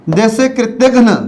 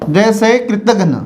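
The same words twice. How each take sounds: The two takes are said the same way.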